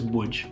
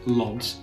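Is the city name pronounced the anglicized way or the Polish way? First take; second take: Polish; anglicized. First: The name is pronounced the Polish way. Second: The name is pronounced the anglicized way. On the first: The speaker calls it right. "you will know it as" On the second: The speaker calls it wrong. "a lot of people would pronounce it Lods if they don't understand the, the Polish language"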